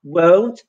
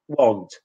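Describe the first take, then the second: First: Won't with a gliding OU, rising; English won't. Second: Won't with a short flat Polish O, low and falling. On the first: Teacher contrasting won't with Polish O. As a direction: model the correct English won't. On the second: Teacher showing the Polish mispronunciation. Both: Shown as a demonstration. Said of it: "There's no difference between".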